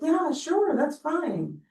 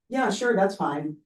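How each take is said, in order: First: It is said in a soft, gentle tone. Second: It is said in a flat, neutral tone. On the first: The speaker actually cares and agrees. "If I say it very gently" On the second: It is probably okay.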